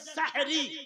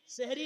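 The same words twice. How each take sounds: First: It is said as 'sahar' plus a final 'i'. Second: It is said with different vowels, not like 'sahar'. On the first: The speaker calls it right. "सहर से सहरी है, सही लफ्ज है सहरी" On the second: The speaker calls it wrong. "सहरी नहीं है"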